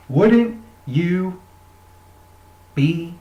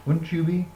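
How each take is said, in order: First: "Wouldn't" punched louder on the repeat; emphatic repeat. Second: Said in the usual way. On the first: Shown as a demonstration. Asking viewers, "Wouldn't" pressed harder. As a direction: hit "Wouldn't" hard the second time.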